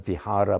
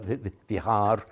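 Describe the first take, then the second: First: The word ends with a final vowel sound. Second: The word ends without a final vowel sound. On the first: "the final a is um, not pronounced" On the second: "they don't talk about a vihara, but a vihar"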